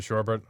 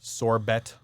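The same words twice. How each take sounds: First: Sherbet said as SHER-bet, two syllables; sherbet pronunciation. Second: Sorbet said as sor-BAY, stress on the end; sorbet pronunciation. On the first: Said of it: "I pronounce it sherbet". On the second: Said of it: "Is it sherbet or sorbet?". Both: Shown as a demonstration.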